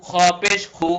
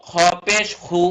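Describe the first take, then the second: The two takes are said the same way.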